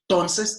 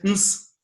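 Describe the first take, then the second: First: The word is said with all its syllables. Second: The word is reduced to bare consonants. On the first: "en lugar de decir entonces" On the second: "simplemente dice ns"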